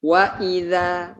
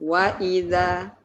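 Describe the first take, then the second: No difference in how they are said.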